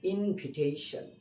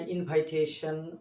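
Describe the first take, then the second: First: The second syllable sounds like 'vih'. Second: The second syllable sounds like 'vye'. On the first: The speaker calls it right. "এই ভি আই এর sound হয় ভি" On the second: The speaker calls it wrong. "ভুল করেছি ইনভিটেশন শব্দ উচ্চারণ করতে যেয়ে।"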